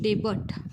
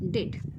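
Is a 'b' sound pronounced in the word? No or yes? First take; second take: yes; no. First: A 'b' sound is pronounced in the middle. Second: No 'b' sound is pronounced in the middle. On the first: The speaker calls it wrong. "डेबट नाही विद्यार्थी मित्रांनो" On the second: The speaker calls it right. "ह्यामध्ये जे काही बी हे अक्षर आहे हे काय आहे रे? सायलेंट आहे"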